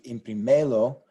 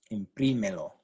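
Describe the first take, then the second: First: "imprimelo" with ME stressed; deliberately misplace the stress in "imprimelo" onto "me"; stress on the second-last syllable. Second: "Imprímelo" with PRI stressed; stress on the third-last syllable. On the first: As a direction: say "imprimelo" as im-pri-ME-lo. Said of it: "which would be the natural rule". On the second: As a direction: hit the second syllable of "Imprímelo", letting "melo" fall away. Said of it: "stress this syllable instead". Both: Shown as a demonstration.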